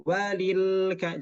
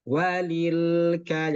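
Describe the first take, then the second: First: "walil ka" with the l pressed hard; pressed lam, the wrong way. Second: "Walil ka" slowly, lam not pressed; light lam in "Walil". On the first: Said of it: "jangan walil ka". ("walil ka" dengan lam ditekan, cara yang salah) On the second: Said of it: "jangan ditekan". ("Walil ka" dengan lam tidak ditekan) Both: Shown as a demonstration.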